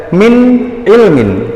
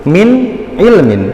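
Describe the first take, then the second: The two takes are said the same way.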